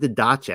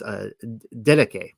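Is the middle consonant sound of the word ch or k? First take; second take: ch; k. First: The middle consonant is a ch sound. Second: The middle consonant is a k sound. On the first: The speaker calls it wrong. "I want to say didache" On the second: The speaker calls it right. "it should be a K there instead of a CH"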